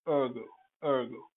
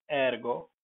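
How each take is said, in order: First: Ergo as "ur-go", vowel of bird; English pronunciation. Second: Ergo as "ehr-go", with a sounded R; Latin pronunciation. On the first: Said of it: "but in English". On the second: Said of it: "in Latin and Latin languages like". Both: Shown as a demonstration.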